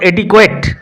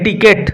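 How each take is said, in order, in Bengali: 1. শেষ সিলেবলটি kw শব্দ দিয়ে শুরু হয়। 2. শেষ সিলেবলটি সাধারণ k শব্দ দিয়ে শুরু হয়। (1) "নট এটিকুয়েট" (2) "উচ্চারণ হবে এটিকেট"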